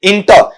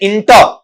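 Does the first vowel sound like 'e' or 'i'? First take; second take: i; i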